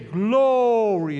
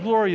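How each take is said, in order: First: The first syllable is drawn out long. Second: The first syllable is short and plain. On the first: "you draw out that first syllable" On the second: "instead of glory"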